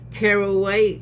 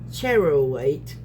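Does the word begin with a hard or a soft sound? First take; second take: hard; soft. First: The first sound is a hard K. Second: The first sound is a soft SH. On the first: The speaker calls it right. "So I'm pronouncing it hard" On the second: The speaker calls it wrong.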